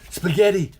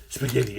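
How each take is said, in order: First: Spaghetti shouted high and loud. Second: Said in the usual way. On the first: Acted. Reader to kids, calling out the title loudly. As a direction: belt out Spaghetti like a hungry kid.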